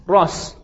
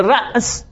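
First: «راس» with a long aa and no catch; easier Iraqi pronunciation. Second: «رأس» with a glottal catch before the s; hamza kept. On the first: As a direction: say «راس» smoothly as raas, hamza dropped. («راس» با الف کشیده، بدون همزه) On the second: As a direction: say «رأس» as ra's, short a cut by hamza. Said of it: "چون راحت تره دیگه". («رأس» با همزهٔ ساکن وسط کلمه) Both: Shown as a demonstration.

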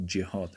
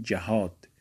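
First: جهاد said with a kasra on the first syllable, as in Arabic; Arabic pronunciation. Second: جهاد said with a fatha on the first syllable, as in Persian; Persian pronunciation. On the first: Teacher correcting students to the Arabic form, جهاد with a kasra. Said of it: "واژهٔ عربیش جهاد هست به کسر". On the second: Teacher showing students the everyday Persian way, جهاد with a fatha. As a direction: say جهاد the Persian way, with an open a after the j. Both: Shown as a demonstration.

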